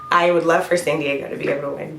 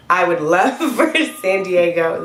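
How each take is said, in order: First: Said in the usual way. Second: Laughing. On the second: Real, not acted. Laughing through coughing fit.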